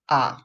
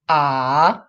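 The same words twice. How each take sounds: First: The pitch stays short and low. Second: The pitch dips down, then rises. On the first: "we normally pronounce ah, ah, short and low" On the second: "the full third tone is"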